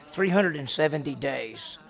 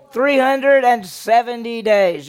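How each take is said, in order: First: Said in the usual way. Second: "Three hundred and seventy days" loud, high and slow; emphatic repeat. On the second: Real, not acted. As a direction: punch out each word of "Three hundred and seventy days" slowly and loudly. Repeats the answer to be remembered.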